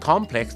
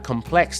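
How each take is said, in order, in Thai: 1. เน้นเสียงที่พยางค์แรก 2. เน้นเสียงที่พยางค์ที่สอง (1) "ถ้า complex จะเป็นนามจะเป็นอะไรที่มันเป็นเหมือนสถานที่" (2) "แต่ถ้า complex นะครับเป็น adjective"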